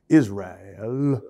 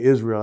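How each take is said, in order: First: The word is drawn out in a preaching style. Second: The word is said in a plain everyday way. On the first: This imitates the style of older preachers. "I'd say Israel. It was stupid" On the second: This is the ordinary way to say the word. "I wouldn't say Israel"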